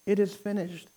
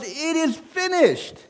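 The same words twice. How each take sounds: First: Echoing the quote softly; quiet restatement. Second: Slow and high, drawn out; quoting Christ slowly and high; Jesus on the cross. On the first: Real, not acted. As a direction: let it settle, softly. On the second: Acted. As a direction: give the dying words slowly, lifted high. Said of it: "Jesus said on the cross".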